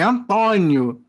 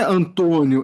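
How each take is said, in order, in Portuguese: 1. A vogal "o" tônica é aberta. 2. A vogal "o" tônica é fechada. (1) "é com acento agudo" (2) "com um acento circunflexo"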